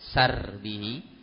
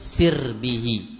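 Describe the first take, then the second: First: The first vowel is an open 'a' sound. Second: The first vowel is a close 'i' sound. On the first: It refers to one's guarded property. "dengan menfathah sinnya" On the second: It refers to oneself. "dibaca dengan mengkasrah sinnya"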